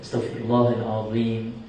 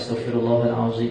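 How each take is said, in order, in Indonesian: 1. Bunyi z dibuat di antara gigi. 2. Bunyi z dibuat di belakang gigi.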